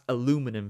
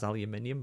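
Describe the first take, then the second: First: It is said with four syllables, American style. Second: It is said with five syllables, British style. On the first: This is the form Americans use. "That's aluminum for you Americans" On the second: This is the speaker's own natural form. "I do naturally pronounce it as aluminium"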